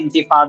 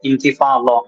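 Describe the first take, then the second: First: The last consonant is a plain d sound. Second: The last consonant is an emphatic, heavy dh sound. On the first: It means to come to an end. The speaker calls it wrong. "സാധാരണ ... നമ്മൾ കേൾക്കാറ് ഇൻതിഫാദ" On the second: It means to shake off. The speaker calls it right. "നമ്മളിപ്പോ പറയുന്ന ശരിക്കുള്ള പദം"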